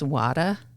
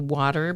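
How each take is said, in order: First: The R sound is dropped. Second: The R sound is pronounced.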